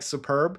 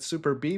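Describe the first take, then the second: First: It is said as one word, superb. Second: It is said as two parts, super and B. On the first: This is how the written name looks. "it really reads like Superb" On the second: This is what the makers call it. "they call it Super B"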